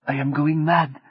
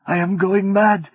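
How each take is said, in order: First: Higher, hushed despairing line; mild despair. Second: Rising panic. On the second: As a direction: let the fear break out. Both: Acted. Martine breaking down.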